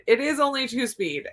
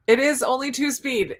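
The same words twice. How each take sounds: First: "only" pressed firmly, ending in a fall; stress on only. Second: "is" pressed firmly, the rest falling; stress on is. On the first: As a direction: lean on "only" to downplay it. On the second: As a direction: insist with weight on "is". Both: Real, not acted.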